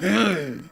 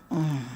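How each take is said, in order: First: The hum sounds plain and unsexy. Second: The hum sounds sultry and sexy.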